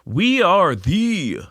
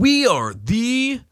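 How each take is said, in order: First: High, very slow name reveal; drawn-out announcement. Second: Very high, dragged-out mock voice; mocking stupid voice. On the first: Acted. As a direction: stretch it out as a grand announcement. Grandly announcing the new show name. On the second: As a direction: imitate the co-host in a silly high drawl. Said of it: "I'll do it in your stupid voice".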